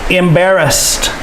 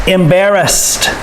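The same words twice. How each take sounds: No difference in how they are said.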